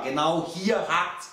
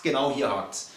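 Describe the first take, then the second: First: Slow stress on "hier" in "Genau hier hakt's"; stressed slowly. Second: Said in the usual way. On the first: Shown as a demonstration. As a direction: lean on "hier" and draw it out. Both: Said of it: "das ist der Fehler".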